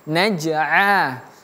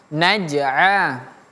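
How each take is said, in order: No difference in how they are said.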